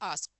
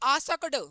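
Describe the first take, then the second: First: The word ends right after the k sound. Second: The word ends with an extra 'ad' syllable. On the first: "simple सा पढ़ेंगे" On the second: "आसकड़ बोल दे तो कछु दिक्कत नहीं है"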